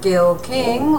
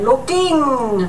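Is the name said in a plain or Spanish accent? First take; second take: plain; Spanish. First: The name is said without any put-on accent. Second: The name is said with a slight Spanish accent.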